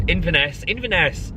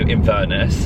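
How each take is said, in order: First: "Inverness" as in-vuh-NESS, higher; corrected Inverness. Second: "Inverness" slipping into in-VER-nuss; weight on VER in "Inverness", weak last syllable; mispronounced Inverness. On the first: Correcting own slip for viewers, "Inverness" said high as in-vuh-NESS. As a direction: repeat "Inverness" with clear final NESS. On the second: Telling viewers the next trip, "Inverness" slips to in-VER-nuss. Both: Real, not acted.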